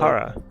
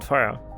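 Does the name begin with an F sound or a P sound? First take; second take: P; F. First: The name begins with a P sound. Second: The name begins with an F sound. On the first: The speaker calls it right. "Do you pronounce it as Para?" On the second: The speaker calls it wrong. "I've always said Farah"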